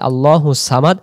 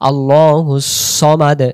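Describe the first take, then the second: First: The s sound is light and plain. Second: The s sound is heavy and emphatic. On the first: "তখন এই সিন অক্ষর উচ্চারণ হচ্ছে" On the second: "সদের বেলা সদ জবর স"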